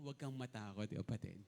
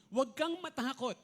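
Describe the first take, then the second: First: Softer, lower Huwag kang matakot, kapatid to a neighbor; a soft word of comfort to a fellow churchgoer; gentle reassurance. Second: Louder proclamation of Huwag kang matakot; preacher booming the angel's comfort; proclaiming angel. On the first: Shown as a demonstration. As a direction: say it quietly to the person beside you. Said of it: "Sabi mo sa katabi mo". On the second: Acted. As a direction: call it out as the angel's command. Angel's proclamation read aloud.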